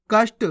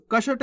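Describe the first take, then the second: First: कष्ट as kasht; ष run straight into ट in कष्ट; half-letter pronunciation. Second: कष्ट as ka-shat; full-letter misreading. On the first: Teacher answers how to read it, कष्ट with half ष. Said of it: "कैसे पढ़ेंगे". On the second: Teacher rejects this reading, कष्ट with full ष. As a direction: put a vowel after ष in कष्ट. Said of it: "नहीं". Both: Shown as a demonstration.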